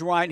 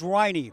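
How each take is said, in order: First: The name is said like Ryan. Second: The name is said like Riney. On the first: The speaker calls it wrong. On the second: The speaker calls it right.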